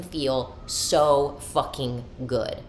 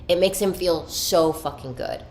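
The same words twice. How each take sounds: First: Drawn-out, deliberate words; slow, savored emphasis. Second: Quicker, livelier insistence; emphatic repeat. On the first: Woman on her man's love of surprises, slowly savoring. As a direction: stretch out each word of "so fucking good". Repeats line, first drawn out. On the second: Woman insisting on her man's joy, emphatic. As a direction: drive home "so fucking good" with more energy. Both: Real, not acted.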